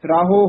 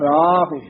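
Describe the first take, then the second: First: The word ends with an 'o' vowel. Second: The word ends with a short 'u' vowel. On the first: The speaker calls it wrong. "ਰਾਹੋ ਹੂੜਾ ਨਹੀਂ ਲਾ ਜਾਣਾ" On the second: The speaker calls it right. "ਰਾਹੁ ਇਸ ਤਰ੍ਹਾਂ ਬੋਲਣਾ"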